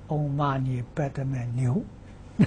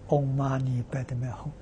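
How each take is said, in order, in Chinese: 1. 最后一个音节读作 niu。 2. 最后一个音节读作 hong。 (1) "但他念错了" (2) "那个是念哄啊"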